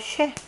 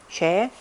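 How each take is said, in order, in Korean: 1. 이 단어는 사성으로 발음합니다. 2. 이 단어는 삼성으로 발음합니다. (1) "거성으로 해서 쉐 사성으로" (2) "상성, 삼성"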